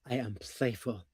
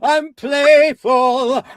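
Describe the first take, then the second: First: It is said deeper, sincerely, without exaggeration. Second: It is said wildly, with exaggeration.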